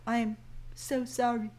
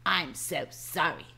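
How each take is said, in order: First: Timid little apology, voice dropping; soft, shrinking sorry; meek apology. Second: A grudging sorry to the boss, lower and flat; mock deadpan sorry. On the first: Acted. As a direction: apologize sheepishly to the boss. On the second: Shown as a demonstration. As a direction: parody the limp apology flatly. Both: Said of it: "No, not "I'm so sorry".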